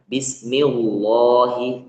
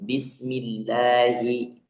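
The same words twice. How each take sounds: First: The 'l' in Allah sounds heavy and dark. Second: The 'l' in Allah sounds light and thin. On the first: The speaker calls it wrong. "jangan bismillahi" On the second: The speaker calls it right. "Lafaz Allah dibaca tipis atau tarkik ya"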